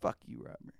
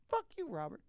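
First: It is said at a lower pitch. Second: It is said at a higher pitch.

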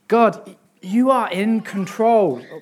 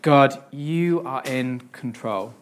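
First: It is said in a frustrated, questioning tone. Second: It is said in a calm, trusting tone. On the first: The speaker complains about God's control. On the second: The speaker trusts and accepts God's control.

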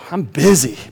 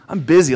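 First: It is said with a tired, sighing tone. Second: It is said with a proud, self-important tone. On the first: The speaker feels worn out by all the work. "One is a little bit of a sigh, like" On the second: The speaker feels important for having much to do. "a little bit of a pride, right? A little bit of a, you know, badge of honor, like"

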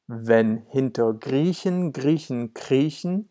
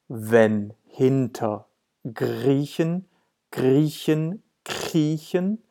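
First: It is spoken at a normal, fluent speed. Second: It is spoken somewhat more slowly. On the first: "now this is how it sounds in German" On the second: "One more time, a bit slower"

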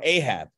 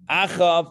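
First: The name is said with English sounds 'Ay-hab'. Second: The name is said with a Hebrew 'ch' sound.

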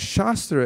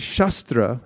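First: The first vowel is a long A. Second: The first vowel is a short A. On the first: It means a body of spiritual teaching. "as shastra, it means the knowledge" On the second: It means a weapon like a sword. "it's just a short A rather than a long A"

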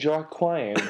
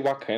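First: The name is sounded out from its spelling. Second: The name is not sounded out from its spelling. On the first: This is how the speaker says it. "I pronounce as I see it" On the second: This is how the other person says it. "You say Joaquin"

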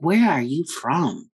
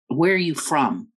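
First: It is asked in a sarcastic, mocking tone. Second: It is asked as a plain, sincere question.

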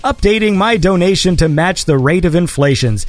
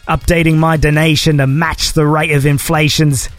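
First: It is read in the speaker's normal accent. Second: It is read in a put-on foreign accent.

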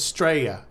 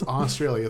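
First: The opening vowel is dropped and the word shortened. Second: The opening vowel is said and the word is full. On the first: The speaker calls it wrong. "They don't even do the A in their country's pronunciation" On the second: The speaker calls it right. "There's a whole sound that comes before the Straya part"

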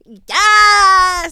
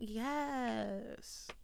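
First: It is said loudly and with high energy. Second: It is said softly and with low energy.

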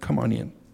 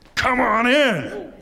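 First: It is said in a casual, offhand way. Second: It is said with excited amazement.

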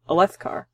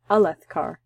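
First: The second syllable is stressed. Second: The second syllable is not stressed. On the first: The speaker calls it wrong. "I've been saying Alethkar, with Leth, but being emphasized" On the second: The speaker calls it right. "I bet you that's how that's pronounced"

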